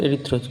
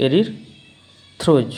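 First: Said in the usual way. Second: এরিথ্রোজ drawn out very slowly, e-ri-thro-j; careful pronunciation. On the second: Shown as a demonstration. Teacher showing students how to pronounce a sugar's name, very slow. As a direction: stretch এরিথ্রোজ syllable by syllable. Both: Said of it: "কি উচ্চারণ করবো?".

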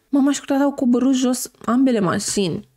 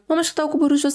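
First: Said in the usual way. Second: Rushed retake. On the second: Shown as a demonstration.

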